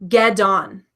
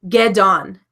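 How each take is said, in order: No difference in how they are said.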